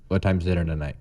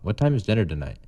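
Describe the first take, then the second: First: It is said in a flat monotone. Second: It is said with a questioning tune.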